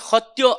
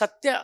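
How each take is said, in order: First: The word starts with an h sound. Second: The word starts with an s sound.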